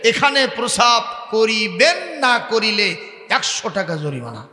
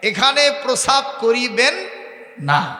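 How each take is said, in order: First: No full stop pause follows 'koriben na'. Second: A full stop pause follows 'koriben na'. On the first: Urinate here; not doing so costs a fine. The speaker calls it wrong. "উনি দাড়ি উঠায় দিয়ে পড়ছে" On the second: Do not urinate here; doing so costs a fine. The speaker calls it right. "তারপরে দাড়ি"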